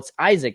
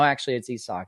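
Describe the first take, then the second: First: The name has an English pronunciation. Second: The name has a Spanish pronunciation. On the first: This is how many listeners say the name. The speaker calls it wrong. "a lot of you say, well, it's Isaac, isn't it?" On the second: This is how the name is said in Spanish. The speaker calls it right. "that's the correct pronunciation for that name in Spanish"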